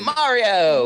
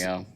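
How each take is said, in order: First: It is said with lots of enthusiasm. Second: It is said flatly, with little enthusiasm.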